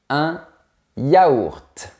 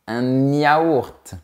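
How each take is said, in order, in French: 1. Les mots sont dits sans consonne de liaison. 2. Une consonne de liaison relie les mots. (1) "Non, on dit" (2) "on ne dit pas"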